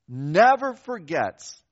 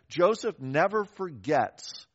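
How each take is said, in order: First: Never forgets, slow and weighty, louder on never; slow emphatic repeat of never forgets; stress on never. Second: Said in the usual way. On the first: Shown as a demonstration. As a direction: lean hard into never, drawn out.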